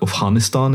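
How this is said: It is said in an over-pronounced, native-style way. The speaker shows off familiarity with the place. The speaker calls it wrong. "the person who says like Afghanistan"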